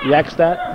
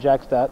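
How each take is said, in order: First: The name begins with a Y sound. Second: The name begins with a J sound. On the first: This is the Norwegian way to say the name. "the Norwegian pronunciation with a Y sound instead of a J" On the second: This is how the name is usually said here. "I've always said Jackstat"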